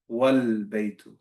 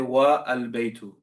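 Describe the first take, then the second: First: The vowel of al is dropped and linked. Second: The vowel of al is pronounced separately. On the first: The speaker calls it right. "We're going to say wal-baytu" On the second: The speaker calls it wrong. "We're not going to say wa al-baytu"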